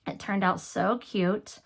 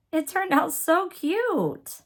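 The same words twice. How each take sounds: First: Said in the usual way. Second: High, slow, gushing "so cute"; delighted. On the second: Real, not acted. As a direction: coo over it, pitched way up. Delighted by her finished piece.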